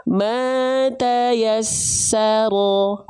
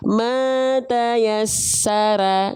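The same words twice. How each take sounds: First: "mata yassaro" very slow, last syllable heavy, near O; drawn-out "mata yassaro" with thick unpouted ro at the end; correct thick ro. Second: "mata yasara" with a plain open A in ra, long and drawn out; slow recitation of "mata yasara", last syllable ra kept thin with A; wrong thin vowel. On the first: Teacher has students watch the mouth, thick ro. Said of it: "mulutnya lihat ya". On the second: Teacher shows students how not to recite it, wrong thin ra. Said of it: "Nggak dibaca mata yasara". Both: Shown as a demonstration.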